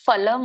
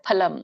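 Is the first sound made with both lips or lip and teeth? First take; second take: lip and teeth; both lips. First: The first sound is made with teeth and lip. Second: The first sound is a breathy two-lip p. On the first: The speaker calls it wrong. "ಇದು ಫಲಂ ಅಲ್ಲ, ಫಲಂ ಅನ್ನುವಂಥದ್ದು ಬೇರೆ ಒಂದು ಭಾಷೆಯ ಒಂದು ಫ ಆಗತ್ತೆ" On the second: The speaker calls it right. "ಪ ಹ ಪ ಫ ನೋಡಿ, ಎರಡು ತುಟಿಗಳು ಕೂಡ್ಬೇಕು"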